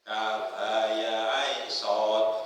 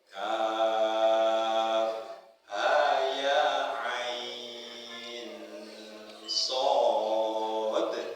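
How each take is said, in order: First: The vowels are kept short, without lengthening. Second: The vowels are drawn out with clear lengthening. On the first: The speaker calls it wrong. "Dulu begitu, salah" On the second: The speaker calls it right. "Ada dednya"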